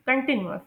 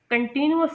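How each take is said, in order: First: कंटीन्यूअस as people commonly mispronounce it; common mispronunciation. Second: कंटीन्यूअस with short, unstressed कन and अस; light first and last syllables in कंटीन्यूअस; corrected pronunciation. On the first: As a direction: imitate the common wrong कंटीन्यूअस. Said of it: "इसे लोग pronounce करते हैं कंटीन्यूअस". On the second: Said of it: "लेकिन इसे कंटीन्यूअस pronounce करते हैं". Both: Shown as a demonstration.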